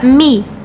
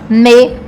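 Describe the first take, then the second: First: The syllable has an 'ee' vowel. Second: The syllable has an 'eh' vowel. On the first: The speaker calls it right. "na pronúncia fica mi" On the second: The speaker calls it wrong. "não me"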